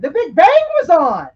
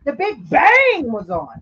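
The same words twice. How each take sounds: First: The Big Bang was on, loud with Bang punched; emphatic, loud. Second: The Big Bang was on, slower, each word spaced out; slow emphatic repeat. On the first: Hammering the point to the co-hosts, loud. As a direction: lean hard on Bang. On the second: Repeating the point slowly for the co-hosts. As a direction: drag it out slowly to drive it home. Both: Real, not acted. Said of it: "repeats for emphasis".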